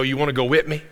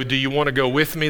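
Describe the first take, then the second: First: Light South Georgia country twang on "wanna go with me"; South Georgia accent. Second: Said in the usual way. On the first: Shown as a demonstration. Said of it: "he's South Georgia ... they say it like that". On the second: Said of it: "they don't go ... they say it like that".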